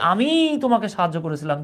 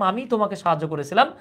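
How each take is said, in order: First: The first word 'ami' is strongly emphasized. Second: No word gets special emphasis; it sounds neutral. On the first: It was I myself, no one else, who helped you. "জোর দিলাম কার উপর? সাবজেক্টের উপর।" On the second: A plain statement that I helped you. "আগে বলেছিলাম"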